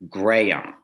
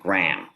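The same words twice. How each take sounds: First: The name is drawn out into three syllables. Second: The name is clipped into one syllable. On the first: The speaker calls it right. "sort of three syllables" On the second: The speaker calls it wrong. "which is one"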